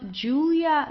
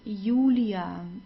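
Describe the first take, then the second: First: It begins with an English J sound. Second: It begins with an English Y sound. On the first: The speaker calls it wrong. "not Julia like in English" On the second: The speaker calls it right. "pronounced like the English Y"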